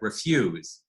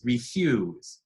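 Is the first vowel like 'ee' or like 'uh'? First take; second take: uh; ee. First: The first syllable has a reduced 'uh' vowel. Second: The first syllable has a clear 'ee' vowel. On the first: The speaker calls it wrong. "I said refuse, but that's not what's transcribed here" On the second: The speaker calls it right. "refuse with an E in the first syllable"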